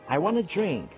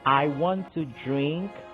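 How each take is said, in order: First: Want to is reduced to one word, wanna. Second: Want to is said as two full words. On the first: "I would say" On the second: "instead of saying"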